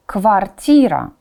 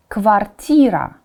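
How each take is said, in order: Both takes have the same delivery.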